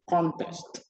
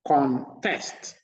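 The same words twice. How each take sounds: First: The stress is on the first syllable. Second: The stress is on the second syllable. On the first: A game or competition. "putting the stress on the first syllable" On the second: To argue against something. "the stress is on the second syllable"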